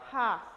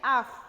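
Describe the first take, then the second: First: The starting h is a soft breathy puff. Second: The starting h is silent, with no air. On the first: The speaker calls it right. "es half. Tienen que sentir que el aire sale" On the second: The speaker calls it wrong. "No es que es como nuestra H. No es half"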